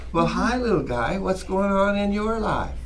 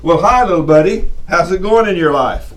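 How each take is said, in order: First: Put-on soft, lilting child-directed speech; sing-songy. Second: Put-on loud, forceful greeting to a child; strict grown-up voice. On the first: Teacher chatting to a two-year-old boy, sing-songy. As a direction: talk to a little one in a gentle singsong. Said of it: "I go into this little sing-songy". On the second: Man talking to a little child untoned-down, loud and forceful. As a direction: boom it out without toning it down. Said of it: "tone it down a little bit". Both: Shown as a demonstration.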